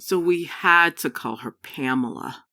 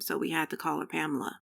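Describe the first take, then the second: First: It is read slowly, at a relaxed pace. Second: It is read quickly, without slowing down. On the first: It sounds like a realistic story. The speaker calls it right. "this is what it could sound like" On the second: It sounds like reading a textbook in class. The speaker calls it wrong. "this is what you may sound like now"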